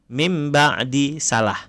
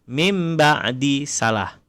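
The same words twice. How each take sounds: No difference in how they are said.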